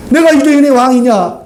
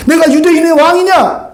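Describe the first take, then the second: First: 내가 hit first and firmest; 내가 유대인의 왕이냐, weight on 내가; stress on 내가. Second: 내가 유대인의 왕이냐, weight on 유대인의; stress on 유대인의. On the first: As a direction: put the weight on 내가, then fall. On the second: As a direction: lean hard on 유대인의, let the rest fall. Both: Shown as a demonstration. Repeats Pilate's question, shifting stress.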